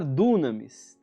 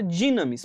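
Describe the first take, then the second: First: The first vowel sounds like 'oo'. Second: The first vowel sounds like 'ee'. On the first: The speaker calls it wrong. "Alguns vão falar dunamis" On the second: The speaker calls it right. "Mas o certo é falar dinamis"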